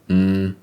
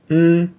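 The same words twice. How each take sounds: First: The hum is on a low pitch. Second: The hum is on a high pitch. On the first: "With a low tone or tone three" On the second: "pronounced as a high tone or tone one"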